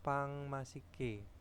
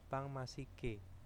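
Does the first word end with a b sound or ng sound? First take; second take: ng sound; ng sound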